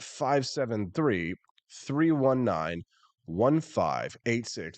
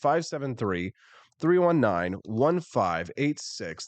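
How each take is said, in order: First: The number is read very slowly. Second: The number is read at a normal pace.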